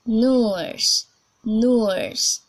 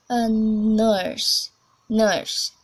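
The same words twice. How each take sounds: First: British "nurse", loud, drawn-out rounded vowel; demonstrated British "nurse"; British accent. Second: American "nurse", r-coloured shorter vowel; demonstrated American "nurse"; American accent. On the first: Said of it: "we are going to British English first". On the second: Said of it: "A short vowel". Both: Shown as a demonstration.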